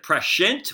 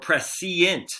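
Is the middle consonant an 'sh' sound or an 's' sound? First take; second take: sh; s. First: The middle consonant is an 'sh' sound. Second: The middle consonant is an 's' sound. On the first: "with an S H" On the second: "with a C I E"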